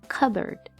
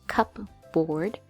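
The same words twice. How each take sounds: First: The p sound is almost silent. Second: The p sound is clearly pronounced. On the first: The speaker calls it right. "this P almost has no sound, so it sounds cupboard" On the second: The speaker calls it wrong. "we don't say cupboard"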